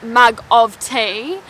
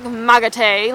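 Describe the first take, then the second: First: "mug of tea" spelt out slowly with every sound clear. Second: Put-on "mug of tea" run together as "mugga tay" in a light Irish accent. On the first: Shown as a demonstration. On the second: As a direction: say "mug of tea" the way a rural Irish farmer would. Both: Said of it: "they say, like".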